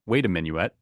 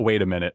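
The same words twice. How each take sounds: First: "minuet" ending in a clear "-yoo-ET"; minuet pronunciation. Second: "minute" said as two syllables, MIN-it; minute pronunciation. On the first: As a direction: say "minuet" as three syllables, min-yoo-et. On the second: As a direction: say "minute" with a short "-it" ending. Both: Shown as a demonstration. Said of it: "if that's supposed to be minuet or minute".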